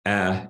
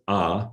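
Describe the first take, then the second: First: "a" as a front "æ", as in cat; light vowel. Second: "a" as an open back "ah"; back vowel. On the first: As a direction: say "a" forward in the mouth, like the vowel of "cat". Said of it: "after a light vowel". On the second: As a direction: say "a" far back in the mouth, like "ah". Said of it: "after a back vowel". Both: Shown as a demonstration.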